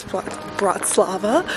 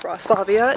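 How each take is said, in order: First: Bratislava, with the middle "ti" and ending in -va; restart, then say "Bratislava" with "ti" in it and a plain -va ending; corrected pronunciation. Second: Braslavia, ending in -via, without the middle "ti"; wrong pronunciation. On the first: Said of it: "It's not Braslavia". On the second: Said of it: "I've been saying it wrong". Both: Shown as a demonstration.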